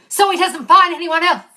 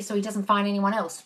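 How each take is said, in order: First: Loud, higher throw-back of someone's words; emphatic mocking quote. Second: Said in the usual way. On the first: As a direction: call out the offending phrase forcefully. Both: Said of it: "that bit of the sentence where you said".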